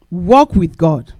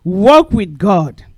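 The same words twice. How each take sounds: First: Walk with God, slowly and deliberately; slow emphasis. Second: Walk with God, even slower, louder, final; slow emphasis. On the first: Preacher spelling out a memory aid, slow and weighty. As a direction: lay each word down. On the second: Preacher repeating the memory aid, slow and louder. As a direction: drive the phrase home. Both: Shown as a demonstration. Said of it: "W O R K".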